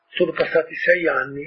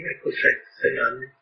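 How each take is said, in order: First: Said in the usual way. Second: Hushed repeat. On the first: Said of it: "repeats the years for effect". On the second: Real, not acted. Speaker musing to listeners, hushed and soft. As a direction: drop to a near whisper on sei anni. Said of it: "repeats the years, hushed".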